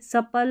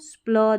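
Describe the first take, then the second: First: The consonants are separated by an inserted vowel. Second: The consonants are blended with no vowel between. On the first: The speaker calls it wrong. "आप ऐसे सपल नहीं पढ़ेंगे" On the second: The speaker calls it right. "एक साथ पढ़ना पड़ेगा"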